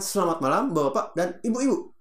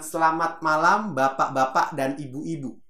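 First: The syllables are chopped off and clipped short. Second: Every syllable is pronounced fully and clearly. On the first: The speaker calls it wrong. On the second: The speaker calls it right. "Ya katakan begitu"

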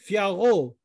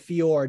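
First: The final syllable of the name is pronounced. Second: The final syllable of the name is dropped. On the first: The speaker calls it right. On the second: The speaker calls it wrong.

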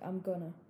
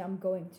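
First: The words going to are reduced to gonna. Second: The words going to are said in full. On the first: "You're just like" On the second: "Usually, you don't say"

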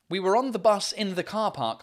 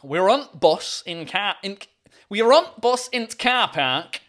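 First: It is said with a standard accent, 'the' pronounced fully. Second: It is said with a Yorkshire accent, 'the' reduced. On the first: "Instead of saying int car in the car park" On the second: "it's just int car park"

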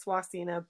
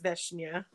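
First: The surname is pronounced the English way. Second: The surname is pronounced the Czech way. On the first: "The English version that they recreated is" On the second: "but in Czech it's"

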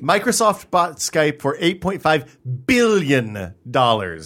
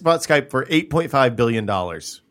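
First: Billion is stressed, with the B accentuated. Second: Billion is said plainly, without extra stress.

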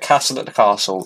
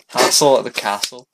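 First: It is said in a plain, unaccented voice. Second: It is said in a put-on Scottish accent. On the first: The speaker calls it wrong. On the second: The speaker calls it right.

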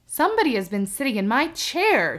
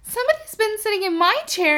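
First: The voice is deep, gruff and rough. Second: The voice is tiny, high and small. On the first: The biggest bear is speaking. "in his great gruff, rough voice" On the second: The smallest bear is speaking. "in his little small wee voice"

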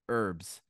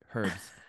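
First: It is said with an American pronunciation. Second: It is said with a British pronunciation.

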